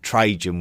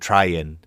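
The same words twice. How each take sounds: First: The name is said the usual English way. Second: The name is said closer to the original. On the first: This is the familiar modern name. "we would believe that Trajan" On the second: This is closer to the original name. "was probably actually called"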